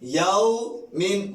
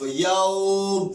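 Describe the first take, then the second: First: The word ends with a nasal 'in' sound. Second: The word ends short without the final syllable.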